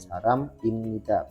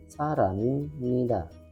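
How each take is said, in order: First: The two words are said apart, unlinked. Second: The final m links into the next syllable. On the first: This follows the written form. "penulisannya sesuai dengan kaidahnya" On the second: This is how it is actually read. "bacanya saramimnida"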